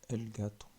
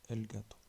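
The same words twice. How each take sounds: The two takes are said the same way.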